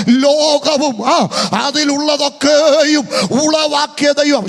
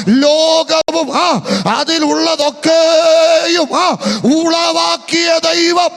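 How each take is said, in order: First: Loud, drawn-out proclamation; slow, loud call for the crowd to repeat. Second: Louder, higher slow shout; even louder. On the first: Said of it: "ഉറക്കെ പറ". (ഉറക്കെ, നീട്ടി പ്രഖ്യാപിക്കുന്നു) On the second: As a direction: lift the voice once more and shout. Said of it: "ഇച്ചിരി കൂടെ ശബ്ദം ഉയർത്തി". (കുറച്ചുകൂടി ശബ്ദം ഉയർത്തി വിളിച്ചുപറയുന്നു) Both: Shown as a demonstration.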